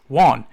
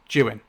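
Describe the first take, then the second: First: The name starts with a W sound. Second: The name starts with a J sound. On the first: This is how the name's owner says it. "You know it's pronounced Juan" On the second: This is how the name is said where the speaker grew up.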